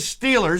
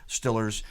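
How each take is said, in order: First: It is said in a standard American accent. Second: It is said in a local Pittsburgh accent. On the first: "as we'll say in regular English" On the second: "That's what they say in P A"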